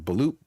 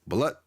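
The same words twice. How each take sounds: First: "balut" as buh-LOOT, with a long oo; long oo guess. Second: "Balut" as buh-LUT, with a short u; short u guess. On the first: Streamer guessing how to pronounce it, "balut" with a long oo. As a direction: say "balut" to rhyme with loot, questioning. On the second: Streamer trying another pronunciation, "Balut" with a short u. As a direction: say "Balut" to rhyme with but, rising. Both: Shown as a demonstration. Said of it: "don't even know how to pronounce".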